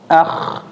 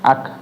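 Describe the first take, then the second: First: It ends in a rasping throat fricative. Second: It ends in a k stop with slight breath. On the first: The speaker calls it wrong. "jangan sampai jadi huruf kho" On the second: The speaker calls it right. "ak tapi dikasih angin sedikit ya, atau namanya hames"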